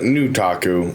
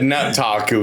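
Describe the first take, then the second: First: The first syllable sounds like 'new'. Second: The first syllable sounds like 'nut'. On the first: The speaker calls it wrong. "not the new taku" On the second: The speaker calls it right. "that that nut taku"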